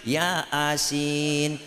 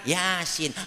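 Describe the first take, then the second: First: It is split into two separate words. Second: It is said as one smooth word.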